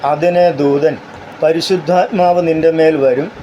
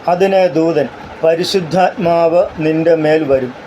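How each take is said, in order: The two takes are said the same way.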